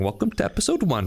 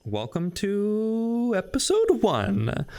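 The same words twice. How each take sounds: First: Said in the usual way. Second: Slow, drawn-out host intro; hyped intro. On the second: Acted. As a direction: stretch out the welcome like a show host. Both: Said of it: "so now we're actually restarting".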